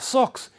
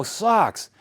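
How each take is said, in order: First: "Socks" high-pitched in an imitated hard German accent. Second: "socks" with an open Boston "ah" vowel, pitched high; local pronunciation. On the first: Foreign runner repeating himself to a local, German-accented "Socks". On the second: Retold or imitated. Local runner catching on to the foreigner's word, American "socks". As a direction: say "socks" as "sahks", in sudden recognition. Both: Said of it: "the way he was saying it".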